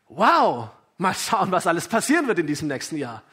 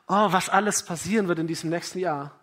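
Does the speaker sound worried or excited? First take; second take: excited; worried. First: It sounds excited and joyful about the year. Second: It sounds worried and anxious about the year.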